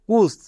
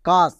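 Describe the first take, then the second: First: The vowel sounds like a short 'oo'. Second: The vowel sounds like an open 'ah'. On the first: The speaker calls it wrong. "এখানেই অনেকে ভুল করে ইউ এর জন্য হস্যকার করে দেই।" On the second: The speaker calls it right. "তাই এখানে আ হবে।"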